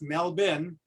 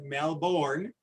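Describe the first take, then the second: First: It is said with an Australian pronunciation. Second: It is said with an American pronunciation. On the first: The speaker calls it right. "taught me it's Melbourne" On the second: The speaker calls it wrong. "Those Americans pronounce it Melbourne"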